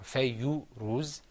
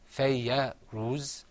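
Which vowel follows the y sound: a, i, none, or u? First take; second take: u; a. First: A short u vowel follows the y sound. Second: A short a vowel follows the y sound. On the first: "or fayyu ruz" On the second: "It's not fayya ruz"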